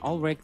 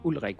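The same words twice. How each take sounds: First: The name is said with English pronunciation. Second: The name is said with Danish pronunciation.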